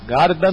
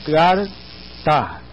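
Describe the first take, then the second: First: "Garda" sounded out with hard g and d; sounding out words. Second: "garta" sounded out, g then t sound; sounding out words. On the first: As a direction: try "Garda" syllable by syllable, g and d sounds. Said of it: "Você vai jogar o som de garda". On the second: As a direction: try "garta" syllable by syllable, t in the middle. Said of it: "Então, coloque". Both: Shown as a demonstration.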